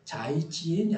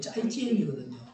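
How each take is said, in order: First: The first consonant is a plain, lax sound. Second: The first consonant is a tense, stiff sound. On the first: The speaker calls it wrong. "아니고" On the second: The speaker calls it right. "된 소리"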